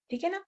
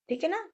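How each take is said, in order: Both takes have the same delivery.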